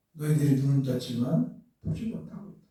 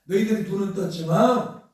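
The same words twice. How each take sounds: First: Low, softer reproach; retold rebuke. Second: Emphatic mild rebuke, pressing on 떴지만; retold rebuke. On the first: Preacher voices Jesus reproaching the Jews, low retold rebuke. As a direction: retell the rebuke quietly, pitched well down. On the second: Preacher voices Jesus reproaching the Jews, retold rebuke. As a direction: retell a reproach, leaning into the last word. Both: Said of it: "책망하는 거예요".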